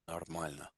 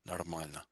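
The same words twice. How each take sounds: The two takes are said the same way.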